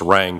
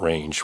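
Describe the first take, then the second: First: The name has a short vowel, like 'bang'. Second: The name has a long vowel, like 'change'. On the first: The speaker calls it right. "it's Rang Pond" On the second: The speaker calls it wrong. "a lot of people mispronounce it, not Range"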